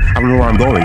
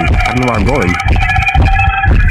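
First: Said in the usual way. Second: Slow, stretched, far-off moan; slow, wailing version of the repeated line; drawn-out wail. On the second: Real, not acted. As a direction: drag the line out in a long whine.

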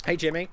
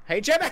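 First: Said in the usual way. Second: High, loud teasing hail; louder call. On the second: Real, not acted. Gamer pestering rival Jimmy, high loud call. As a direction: pitch the name up and call loudly. Calling to the opponent, escalating.

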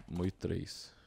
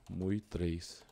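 Both takes have the same delivery.

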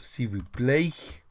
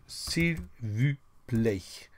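First: S'il vous plaît said slowly with a rise on plaît; slower modelling. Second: S'il vous plaît drawn out slowly, each syllable separate; very slow modelling. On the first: Teacher repeating the phrase for the class, slowly. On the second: Teacher slowly modelling for the class, drawn out. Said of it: "You see, I do, I do". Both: Shown as a demonstration.

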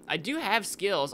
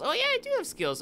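First: Said in the usual way. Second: Squeaky boast. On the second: Shown as a demonstration.

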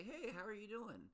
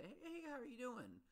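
First: Higher, bright imitation of a caller asking; hammed-up friendly phone hello, pitched up; mock chirpy phone greeting. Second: Much higher, singsong imitation of a cheery asker; hammed-up friendly hello, pitched way up; mock chirpy greeting. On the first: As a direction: mimic a breezy caller checking in. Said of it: "if you call me up and say". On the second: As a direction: mimic someone breezily asking how you are. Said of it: "if you come up to me and say".

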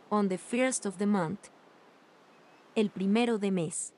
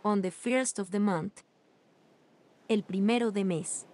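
The two takes are said the same way.

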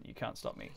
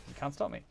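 First: Low, whispered mock threat. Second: Said in the usual way. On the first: Streamer teasing chat, whispered mock boast. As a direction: hiss it under your breath.

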